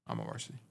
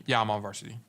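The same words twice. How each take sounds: First: A smug little whispered aside. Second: Said in the usual way. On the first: Real, not acted. Coach brags to chat about varsity, whispered. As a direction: whisper it under your breath. Repeats answer under his breath.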